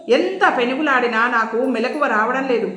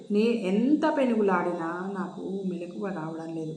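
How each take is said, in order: First: Said in the usual way. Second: Faint, softer, drained of strength; weakly. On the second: A narrator's reading. Jayanthi too weak to wake, speaking faintly. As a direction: say it weakly, worn out. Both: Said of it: "నీరసంగా అంది జయంతి".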